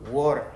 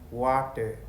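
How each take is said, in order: First: The middle consonant sounds like a d. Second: The middle consonant is a clear t. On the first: "Où il y a T et il prononce un peu comme D" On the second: "nous, on va dire ici, on va lire ce mot-là ici"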